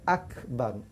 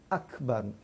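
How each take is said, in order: The two takes are said the same way.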